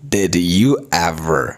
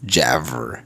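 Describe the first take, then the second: First: Each word is said separately and in full. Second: The words run together into one short word.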